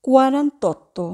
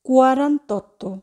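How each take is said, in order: Both takes have the same delivery.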